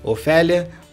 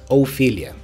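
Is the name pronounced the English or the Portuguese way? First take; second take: Portuguese; English. First: The name is said with Portuguese pronunciation. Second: The name is said with English pronunciation. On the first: "Aqui pra gente é Ofélia" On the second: "mas em inglês"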